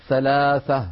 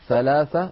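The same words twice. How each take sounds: First: The word is said with th sounds. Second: The word is said with th sounds.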